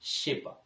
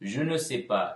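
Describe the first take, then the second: First: The phrase is shortened, dropping je ne. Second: The full phrase is said, including je ne. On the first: This is the casual spoken form. "பேசும்பொழுது பாத்தீங்கன்னா நாங்கள் அதை sais pas என்று சொல்லுவோம்" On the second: This is the written form. "je ne sais pas இல்ல"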